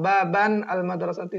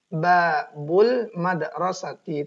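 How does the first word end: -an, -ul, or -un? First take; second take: -an; -ul. First: The first word ends in -an, unlinked. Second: The first word ends in -ul, linked. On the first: The speaker calls it wrong. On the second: The speaker calls it right. "Kalau dia idhofah berarti babul madrasati, tidak boleh bertanwin"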